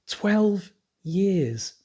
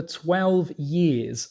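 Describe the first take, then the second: First: TWELVE and YEARS each drawn out and set apart, higher; incredulous emphasis. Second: Said in the usual way. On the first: Real, not acted. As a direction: stretch "Twelve years" slowly, word by word, in disbelief. Repeats the figure in disbelief.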